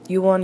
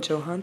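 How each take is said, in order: First: The name begins with a Y sound. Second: The name begins with a J sound. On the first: The speaker calls it right. "it's pronounced Yuan" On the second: The speaker calls it wrong. "Let me make sure I got that correctly"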